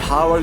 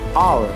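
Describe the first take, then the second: First: The word begins with an audible h sound. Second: The word begins with no h sound. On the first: The speaker calls it wrong. "we cannot say" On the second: The speaker calls it right. "the correct pronunciation is"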